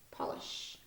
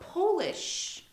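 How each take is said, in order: First: It is said as the noun meaning shine. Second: It is said as the word meaning from Poland. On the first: It names a substance for shining things. "used as a noun, and it's pronounced polish" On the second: It means someone is from Poland. "is an adjective"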